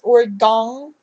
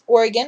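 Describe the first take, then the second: First: It is pronounced the way outsiders say it. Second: It is pronounced the way locals say it. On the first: The speaker is not from the state. The speaker calls it wrong. "everybody outside of the state seems to say incorrectly" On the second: The speaker is from the state. The speaker calls it right. "It's Oregon once again"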